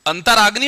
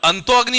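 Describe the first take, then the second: First: अंतराग्नि joined with an r sound; correct sandhi form. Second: अंतो अग्नि with an o ending on अंतो; wrong sandhi form. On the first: Teacher giving the class the answer, correct r-form. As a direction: link अंतर and अग्नि as अंतराग्नि, sounding the r. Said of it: "पुनर् या अंतर". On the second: Teacher testing the class on अंतः अग्नि, wrong o-form. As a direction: say अंतो अग्नि as two words, o before अग्नि. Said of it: "हम उसे पुनो या अंतो नहीं बोलेंगे". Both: Shown as a demonstration.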